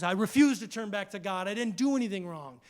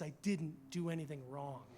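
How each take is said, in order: First: Faster, firmer refusal; a touch of defiant Job. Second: Much softer, steady denial; hushed, firm Job; quiet insistence. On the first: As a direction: stand your ground, pushing the words out. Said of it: "And Job says". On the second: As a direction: say it low and sure. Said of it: "And he says". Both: Retold or imitated.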